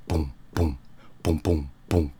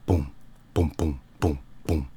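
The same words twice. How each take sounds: The two takes are said the same way.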